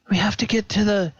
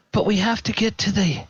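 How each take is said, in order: First: Repeated stammered take; high and quick; flustered. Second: First stammered take; high and quick; flustered. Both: Acted. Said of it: "he's like".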